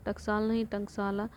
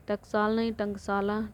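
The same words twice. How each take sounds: The two takes are said the same way.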